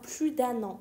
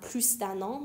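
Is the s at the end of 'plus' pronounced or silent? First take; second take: silent; pronounced. First: The final s of plus is silent. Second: The final s of plus is pronounced. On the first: The speaker calls it right. "میگم پلو دن آن" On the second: The speaker calls it wrong. "نمیگم پلوس دن آن"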